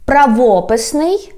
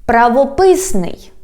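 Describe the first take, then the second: First: "Правописний" stressed on ВО, rising end; stress on second syllable. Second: "правописний" stressed on ПИС, falling; stress on third syllable. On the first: Teacher repeating for learners, "Правописний" stressed on ВО. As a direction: lean on ВО in "Правописний". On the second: Teacher repeating for learners, "правописний" stressed on ПИС. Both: Shown as a demonstration. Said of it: "when we change the stress".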